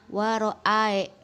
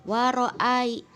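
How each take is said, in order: No difference in how they are said.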